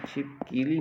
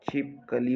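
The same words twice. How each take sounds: First: छिपकीली with a long ई in the middle; wrong spelling-pronunciation. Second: छिपकली with a short कि in the middle; छिपकली spoken crisply, middle syllable short; correct pronunciation. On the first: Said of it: "छिपकीली नहीं होता है". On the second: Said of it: "छिपकली होता है". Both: Shown as a demonstration.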